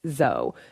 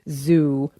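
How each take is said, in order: First: The vowel rhymes with toe. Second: The vowel rhymes with shoe. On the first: It sounds more scientific and traditional. "as in toe" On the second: It echoes the everyday word for an animal park. "as in shoe"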